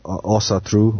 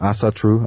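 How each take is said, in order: First: It is pronounced with a Nordic pronunciation. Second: It is pronounced with an English pronunciation.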